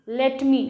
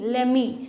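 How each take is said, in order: First: Two separate words with a clear T. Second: Run together as one word without T.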